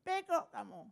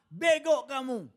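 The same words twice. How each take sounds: First: High squawky parrot copying the insult. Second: Loud, slow scolding; scolding the driver. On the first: Parrot repeating the insult to the driver, high squawk. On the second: Master scolding his driver, loud and slow. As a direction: bark it at the careless driver. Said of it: "Sopirnya salah". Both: Retold or imitated.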